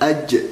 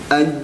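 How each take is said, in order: First: The final consonant has a hissing puff of air. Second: The final consonant is clean with no hissing air. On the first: The speaker calls it wrong. "biasanya si suara anginnya itu ada gitu" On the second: The speaker calls it right. "tidak boleh ada suara desisan angin yang keluar"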